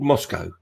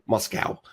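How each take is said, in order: First: It is said with a non-American pronunciation. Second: It is said with an American pronunciation.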